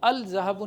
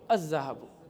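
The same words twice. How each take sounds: First: The l of the article is clearly pronounced. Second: The l is silent, merging into the next sound. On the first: The speaker calls it wrong. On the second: The speaker calls it right.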